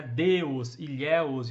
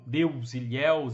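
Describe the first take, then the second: First: "Deus, Ilhéus" with an O before the S; final O spelling sounded. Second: Said in the usual way. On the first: Shown as a demonstration. Teacher showing old plurals, "Deus, Ilhéus" with a sounded O. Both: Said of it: "e não com U".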